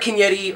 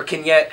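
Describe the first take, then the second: First: "Vignetti" with a final ee sound; "Vignetti", extra last syllable voiced as ee; name pronunciation variant. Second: "Vignette" ending on a t sound; "Vignette", closed off on the final t; name pronunciation variant. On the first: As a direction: say "Vignetti" ending in -ee. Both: Shown as a demonstration. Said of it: "however you wanna say it".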